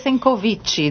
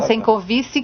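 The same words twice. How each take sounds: First: The C is said like an Italian 'ch'. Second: The C is not said like an Italian 'ch'. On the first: "Se era um C italiano, seria Sencovici" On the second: "Daí é um Sencovici"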